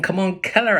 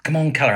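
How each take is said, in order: First: High, loud excited call; calling the puppy. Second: High, loud call to a puppy. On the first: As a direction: whip the puppy into a chase. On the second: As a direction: coax the dog over, brightly. Boy calling his puppy. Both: Acted.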